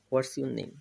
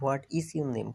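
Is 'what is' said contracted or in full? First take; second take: contracted; full. First: What is is shortened to one word, whats. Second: What is is said as two full words.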